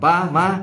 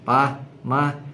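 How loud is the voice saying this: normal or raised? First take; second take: raised; normal. First: It is said louder, with raised pitch. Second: It is said at a normal volume. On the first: The child insists after being ignored. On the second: The child asks once, calmly.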